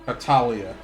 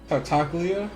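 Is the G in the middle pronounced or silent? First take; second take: silent; pronounced. First: The G in the middle is silent. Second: The G in the middle is clearly pronounced. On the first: "It's so much easier to say when you don't try to enunciate the G" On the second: "I don't even know if I said it right"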